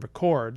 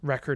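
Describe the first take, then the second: First: The stress is on the second syllable. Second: The stress is on the first syllable. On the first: It is the verb. "noun-verb pairs like record and record" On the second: It is the noun. "noun-verb pairs like record and record"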